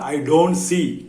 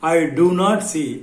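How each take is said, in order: First: 'Do not' is shortened to one syllable, 'don't'. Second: 'Do not' is said as two full words. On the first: "பேச்சு வழக்கில் I டோன்ட் சீன்னு சொல்றதான் எளிமையா இருக்கும், speed கிடைக்கும்" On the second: "I do நாட் சீன்னு சொல்லலாம்"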